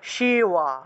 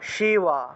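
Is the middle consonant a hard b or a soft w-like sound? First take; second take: soft w; soft w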